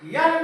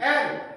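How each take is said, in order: First: It begins with a y sound before the vowel. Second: It begins directly with a vowel sound. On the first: The speaker calls it wrong. "यल नहीं" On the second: The speaker calls it right. "नहीं एल"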